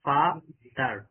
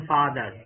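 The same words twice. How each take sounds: First: "ফাদার" broken as ফা, দার; "ফাদার" syllable by syllable with a gap; split into two syllables. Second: Said in the usual way. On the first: Shown as a demonstration. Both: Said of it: "দুইবারে বলতেছি না?".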